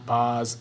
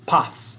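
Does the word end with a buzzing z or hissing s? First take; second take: buzzing z; hissing s. First: The last sound is a buzzing z. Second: The last sound is a hissing s. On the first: The speaker calls it wrong. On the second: The speaker calls it right. "Those all have S sounds to it"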